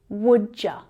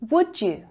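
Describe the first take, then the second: First: The second word is reduced to ya. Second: The second word is a full you.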